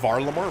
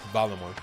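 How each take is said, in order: First: The first syllable has an R sound. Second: The first syllable has no R sound. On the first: This is the accepted pronunciation of the name. "I know it's Varlamor" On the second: This is how the name first sounded when heard. "it sounded like Valamor"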